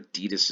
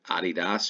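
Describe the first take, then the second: First: It is said in the American way. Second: It is said in a non-American way.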